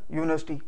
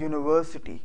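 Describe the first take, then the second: First: यूनिवर्सिटी squeezed short as "yu-nas-ti"; यूनिवर्सिटी run together, middle syllable dropped; everyday local pronunciation. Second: यूनिवर्सिटी in full, "yu-ni-ver-si-ty"; यूनिवर्सिटी fully articulated with all five syllables; correct English pronunciation. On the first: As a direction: swallow the middle of यूनिवर्सिटी, saying "yunasti". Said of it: "हम तो कहते हैं ना". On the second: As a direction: sound every syllable of यूनिवर्सिटी, including "ver". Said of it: "English में इसको बोलते हैं". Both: Shown as a demonstration.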